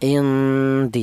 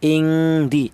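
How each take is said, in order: First: The n is faint, with only a light nasal hum. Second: The n carries a strong, prolonged ng-like nasal hum. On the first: The speaker calls it right. "Kalau diperlihatkan ya bunyi vokalnya huruf N N ya, indi seperti itu" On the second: The speaker calls it wrong. "Tidak dibaca lebih kuat dengungnya seperti contoh ing di ng bukan ya"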